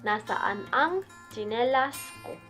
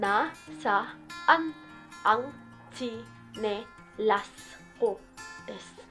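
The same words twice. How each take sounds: First: It is said at normal speed. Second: It is said slowly.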